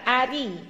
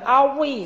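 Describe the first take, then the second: First: The r is pronounced thin and light. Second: The r is pronounced thick and heavy. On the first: The speaker calls it right. "Yang benar ari" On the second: The speaker calls it wrong. "Tidak boleh dibaca tebal"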